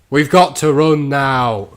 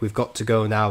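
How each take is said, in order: First: It is said loudly and forcefully. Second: It is said quietly and flatly.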